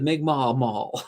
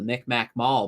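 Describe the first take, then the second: First: The name is said the newer way, Mi'kmaq. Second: The name is said the older way, Micmac. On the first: It follows the community's own name. The speaker calls it right. "I'm going to call it the, the Mi'kmaq Mall" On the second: It follows the long-standing everyday name. The speaker calls it wrong. "they're still calling that mall the Micmac Mall"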